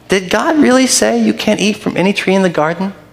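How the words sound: It sounds like an innocent, sincere question.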